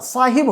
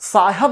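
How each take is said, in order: First: The second syllable has an 'i' vowel. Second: The second syllable has an 'a' vowel. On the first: The speaker calls it right. "साहिब होता है" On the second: The speaker calls it wrong. "साहब नहीं होता"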